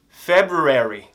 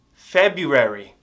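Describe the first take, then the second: First: February said fully with the r, slowly; February with the r sounded, feb-ru-ary; first way. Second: February said without the r, slowly; February without the first r, feb-u-ary; second way. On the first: Teacher gives students one way to say February, with the r. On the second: Teacher gives students the other way to say February, no r. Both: Shown as a demonstration. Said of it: "February ou February".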